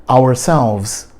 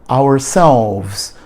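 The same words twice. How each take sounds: No difference in how they are said.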